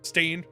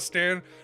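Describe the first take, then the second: First: The vowel sounds like the one in 'rain'. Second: The vowel sounds like the one in 'man'. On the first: The speaker calls it right. "Stain, not Stan" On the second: The speaker calls it wrong. "not Stan"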